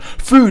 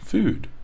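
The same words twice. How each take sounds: First: The word is shouted loudly and forcefully. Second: The word is said at a relaxed volume. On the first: The speaker calls it wrong. "yell out every single word" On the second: The speaker calls it right. "That's very natural"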